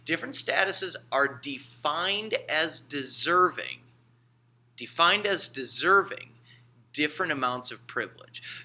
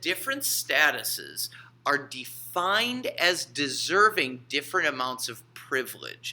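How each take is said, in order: First: It is said slowly. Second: It is said at normal speed.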